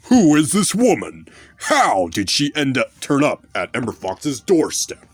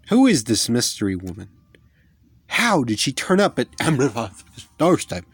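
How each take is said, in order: First: It is said in a put-on announcer voice. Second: It is said in a normal speaking voice.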